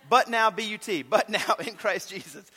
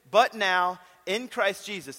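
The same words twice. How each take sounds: First: Cracking up through the verse; laughing. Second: Said in the usual way. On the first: Real, not acted. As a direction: laugh while reading it. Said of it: "I'm sorry, I'm a mess".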